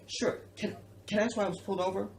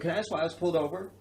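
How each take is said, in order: First: It is said in a meek, fake-compliant tone. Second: It is said in a confrontational, uppity tone.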